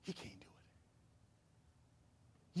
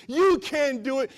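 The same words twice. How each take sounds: First: Whispering. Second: Taunting enemy voice. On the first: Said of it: "whispering in your ear". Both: Acted.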